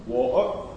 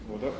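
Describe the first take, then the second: First: "Water" with a glottal stop for the t. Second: "water" with a fully sounded t; no glottal stop. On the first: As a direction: drop the t in "Water" into a catch in the throat. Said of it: "with a glottal stop". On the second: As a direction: say "water" without a glottal stop, t released clearly. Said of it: "The first one without". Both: Shown as a demonstration.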